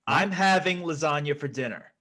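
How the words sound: It is said as a demand.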